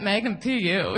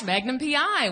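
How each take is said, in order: First: "Magnum P U" with U replacing the I, like "pee-yoo"; the joke version, P U for smelly. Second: "Magnum P I" said with a clear I at the end; plain "P I" with the I stressed. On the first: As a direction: land on "U" as in stinky pee-yoo. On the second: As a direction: end on a crisp "I". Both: Shown as a demonstration.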